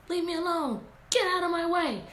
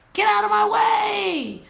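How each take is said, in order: First: Fussing Red. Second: Higher, louder and slow, a full furious shout; Red yells at the wolf to move, loud and high. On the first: Retold or imitated. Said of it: "That's what I think she's saying". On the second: Acted. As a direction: yell it at the wolf blocking her path. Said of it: "My voice sounds really funny".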